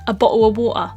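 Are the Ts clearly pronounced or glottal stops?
glottal stops. The Ts are replaced by glottal stops.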